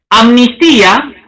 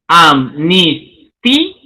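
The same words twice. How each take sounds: First: Said in the usual way. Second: Amnistía drawn out slowly, syllable by syllable, lower; slow split of amnistía into syllables; syllabified. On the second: Shown as a demonstration. Teacher showing students the syllable split, slow. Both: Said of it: "el silabeo".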